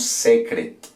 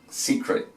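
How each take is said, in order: First: The first vowel sounds like 'eh'. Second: The first vowel sounds like 'ee'. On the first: The speaker calls it wrong. "aquí no decimos secret, no" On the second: The speaker calls it right. "secreto en inglés se pronuncia secret"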